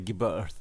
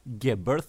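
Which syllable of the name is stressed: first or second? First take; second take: second; first. First: The stress is on the second syllable. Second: The stress is on the first syllable. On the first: "du säger Geberth med betoningen på andra stavelsen" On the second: "då var det Geberth"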